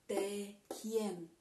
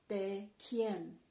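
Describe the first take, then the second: Both takes have the same delivery.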